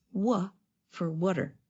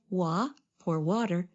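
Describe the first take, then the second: First: Short "uh" vowel in "wa", as in what; "wa" as in "what are". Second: "wa" with the open vowel of the drink water. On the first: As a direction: say "water" like "what are" run together. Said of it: "instead of wa for water". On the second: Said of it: "But instead of wa". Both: Shown as a demonstration.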